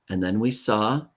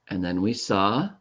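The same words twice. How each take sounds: No difference in how they are said.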